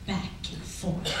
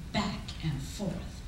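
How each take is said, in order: Both takes have the same delivery.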